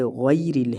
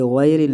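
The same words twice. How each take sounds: First: "غیرل" slowly, gliding ghai to ee; ghay-ril, tight y in "غیرل"; clear ghai. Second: "غیرل" with open ghae; majhool vowel. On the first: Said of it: "یہاں پر غی ہے". ("غیرل" غی کے ساتھ) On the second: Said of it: "یہ غیرل نہیں". ("غیرل" مجہول انداز میں) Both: Shown as a demonstration.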